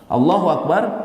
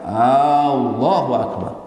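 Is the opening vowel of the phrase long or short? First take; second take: short; long. First: The opening vowel is kept short. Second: The opening vowel is drawn out long. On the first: It states that God is the greatest. The speaker calls it right. "artinya Allah yang maha besar" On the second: It asks whether God is the greatest. The speaker calls it wrong. "kalau dia memanjangkan hamzah"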